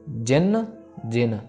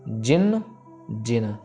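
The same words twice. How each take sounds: The two takes are said the same way.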